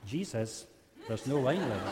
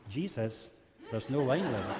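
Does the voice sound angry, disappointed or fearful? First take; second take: disappointed; disappointed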